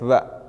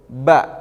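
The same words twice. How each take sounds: First: The consonant is released softly, without pressure. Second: The consonant is released with strong, pressed force. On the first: The speaker calls it wrong. "Ketika kita tidak apa tidak menekannya dengan kuat, ba uh, mun leuleus ba" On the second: The speaker calls it right. "ieu ba"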